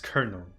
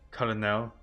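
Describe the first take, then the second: First: It is pronounced the English way. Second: It is pronounced the French way. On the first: "English becomes colonel" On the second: "instead of simply colonel"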